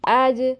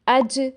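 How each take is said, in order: First: The j is loose, sounding close to a y. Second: The j has air escaping, a hissy sound. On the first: "जीम से कम मगर या से ज़्यादा मिलती है" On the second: "हवा निकलती महसूस होती है, जो कि गलत है"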